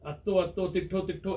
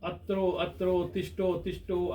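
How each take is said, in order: First: The words use doubled 'tt' and 'tth' sounds. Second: The words use 'tr' and 'shth' clusters. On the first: The Prakrit form a small child managed to say. "मैंने अत्तो अत्तो बोला, ... ऐसे बोला" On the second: The standard form that adults are expected to say. "ऐसा बोला जाता है"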